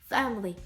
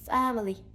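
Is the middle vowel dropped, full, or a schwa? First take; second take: dropped; full. First: The middle vowel is dropped entirely. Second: The middle vowel is a full, clear vowel. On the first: "також це слово часто скорочується" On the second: "Не family"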